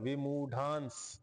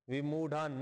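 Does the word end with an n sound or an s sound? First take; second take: s sound; n sound. First: The word ends in a nasal followed by s. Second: The word ends in a plain n sound. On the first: This is the form joined to the next word. "विमूढांस असं उच्चारण करायचं" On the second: This is the word's basic form before joining. "न कारांत शब्द होता"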